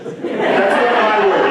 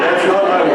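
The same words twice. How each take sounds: First: Slow, laughing through the words; slow laughing "That's not my word"; laughing disclaimer. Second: Said in the usual way. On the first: Real, not acted. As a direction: laugh it off, drawn out. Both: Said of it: "I hear bullshit".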